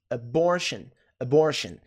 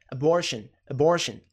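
No difference in how they are said.

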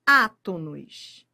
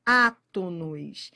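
First: Átonos drawn out and slower, stress on á; stressed repeat. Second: Átonos said slowly, lower, leaning on the Á; stressed repeat. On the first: Teacher echoing the key word, slow and weighty. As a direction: land on átonos. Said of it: "a banca quer saber". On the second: Teacher repeating the key word for students, slow stress. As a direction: hammer the word Átonos home. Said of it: "se são todos átonos". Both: Shown as a demonstration.

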